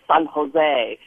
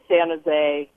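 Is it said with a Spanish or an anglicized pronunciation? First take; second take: Spanish; anglicized. First: It is said with a Spanish-style pronunciation. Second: It is said with a local anglicized pronunciation.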